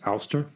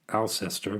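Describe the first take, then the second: First: The name is shortened to two syllables. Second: The name is said as it is spelled. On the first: "So maybe it's Ulster, as if it were Ulstershire" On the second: "The temptation is to pronounce it Alcester, which I'm absolutely sure is wrong"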